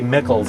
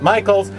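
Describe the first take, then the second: First: The vowel is short, like 'mick'. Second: The vowel is long, like 'mike'. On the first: Some fans say it this way. "people say Mickles sometimes" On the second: The man himself says it this way. "he actually pronounces it Michaels"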